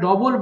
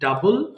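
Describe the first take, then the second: First: The first vowel sounds like 'o'. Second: The first vowel sounds like 'ah'. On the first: The speaker calls it wrong. "ডবলটা সঠিক উচ্চারণ নয়" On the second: The speaker calls it right. "সঠিক উচ্চারণ হবে ডাবল"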